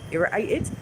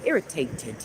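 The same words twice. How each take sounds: First: The middle t is a glottal stop. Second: The middle t is a clear t.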